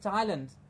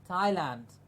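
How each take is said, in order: First: The last syllable is reduced, not a full 'land'. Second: The last syllable is a full, clear 'land'. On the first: This is the older pronunciation. "was pronounced and told to us as Thailand" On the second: This is the current pronunciation. "now we have to say the land at the end"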